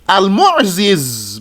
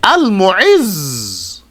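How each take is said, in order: First: "Al-Mu'ziz" with a z on each side of the last vowel; unmerged zays. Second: "Al-Mu'izz" with one long held final z; merged zays. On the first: Teacher showing what it originally was, "Al-Mu'ziz" with two separate zays. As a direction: sound both z's apart in "Al-Mu'ziz". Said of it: "the two zays". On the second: Teacher showing what it becomes, "Al-Mu'izz" with the zays joined. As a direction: hold the buzzing z at the end of "Al-Mu'izz". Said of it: "put the two zays together". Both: Shown as a demonstration.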